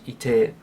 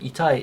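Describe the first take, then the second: First: The word is shortened, ending in 'e'. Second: The word is said in full, ending in 'ai'. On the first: "it becomes ite" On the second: "rather than itai"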